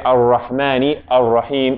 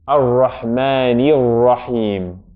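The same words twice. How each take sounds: First: There is a stop between the two words. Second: The two words run together without a stop. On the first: The speaker calls it wrong. "we don't stop there. We don't say" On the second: The speaker calls it right.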